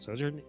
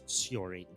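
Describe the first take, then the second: First: The name sounds like the word sojourn. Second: The name sounds like syor-in, two short syllables. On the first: The speaker calls it wrong. "It's not Sojourn" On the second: The speaker calls it right. "it's Sjorin"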